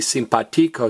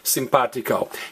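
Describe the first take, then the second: First: The stress is on the syllable ti. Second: The stress is on the syllable pa. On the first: The speaker calls it wrong. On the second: The speaker calls it right.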